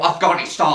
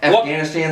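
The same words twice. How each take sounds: First: It is said in a put-on foreign accent. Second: It is said in a plain American accent.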